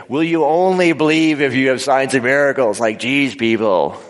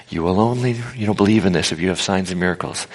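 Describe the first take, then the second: First: Higher, louder, incredulous challenge; exasperated. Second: Prophetic, positive reading. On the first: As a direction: throw it at them, fed up. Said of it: "But if I do it this way". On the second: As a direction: declare it as good news, evenly. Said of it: "prophetic sense". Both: Shown as a demonstration.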